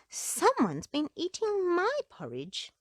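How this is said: It is said with a startled gasp.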